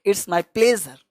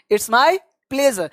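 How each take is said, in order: First: Said in the usual way. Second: Very slow, each word stretched for clarity; slow demo. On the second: Shown as a demonstration. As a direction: model it slowly for the class. (धीमे, साफ़ उच्चारण में) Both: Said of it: "तो आपको जवाब देना है".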